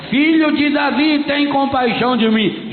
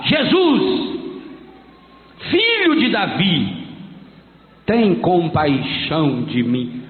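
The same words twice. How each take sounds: First: Higher, louder, shorter shout for mercy; louder cry. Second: Slow, falling plea that sinks lower; pleading cry. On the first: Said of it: "Mas ele gritava mais alto". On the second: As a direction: beg for mercy, drawn out. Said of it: "começou a gritar". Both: Retold or imitated.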